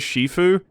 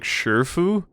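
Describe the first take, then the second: First: The word begins with an sh sound. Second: The first vowel is an r-coloured 'ur' sound. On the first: The game uses this pronunciation. "the pronunciation that the game gives, and it says Shifu" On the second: A character says it this odd way. "Hong weirdly says like Shurfu"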